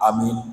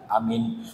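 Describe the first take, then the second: First: It is said quickly and short. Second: It is said slowly and drawn out. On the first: The congregation answers in a rush. "Makmumnya ya kompak" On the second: The congregation answers at a leisurely length. "Biasanya aminnya tidak seperti yang tadi"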